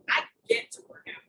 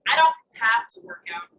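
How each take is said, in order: First: "get" lifted higher in pitch as the key word; stress on GET. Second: "have" punched louder, the rest falling away; stress on HAVE. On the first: Coach reframing exercise as a privilege, stress on "get". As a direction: lift "get" up high, ending on a rise. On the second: Coach reframing exercise as no chore, stress on "have". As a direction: hit the word "have" hard, then let it fall. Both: Shown as a demonstration.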